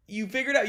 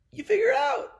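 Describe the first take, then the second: First: Said in the usual way. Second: Very high, pinched silly line; squeaky mock voice. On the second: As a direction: toss it off in a squeaky cartoon voice. Mocking advice on swimming.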